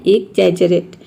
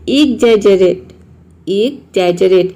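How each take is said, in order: First: Said in the usual way. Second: Slow demo word. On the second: Shown as a demonstration. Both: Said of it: "इसको pronounce करते हैं exaggerate".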